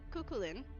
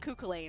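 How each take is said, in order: First: The last syllable sounds like 'lin'. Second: The last syllable sounds like 'lane'. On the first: The speaker calls it right. "I'm pronouncing it right" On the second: The speaker calls it wrong. "I was calling him Kukulane"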